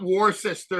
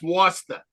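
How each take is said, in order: First: It is said in a general, non-Boston accent. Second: It is said in a Boston accent.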